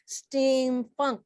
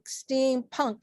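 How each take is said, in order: First: Steampunk said as "steamfunk"; funk variant. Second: Said in the usual way. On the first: Real, not acted. Genre list, funk then punk.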